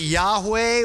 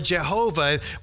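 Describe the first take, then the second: First: The name is pronounced as Yahweh. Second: The name is pronounced as Jehovah. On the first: "So you can pronounce it Yahweh" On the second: "or Jehovah"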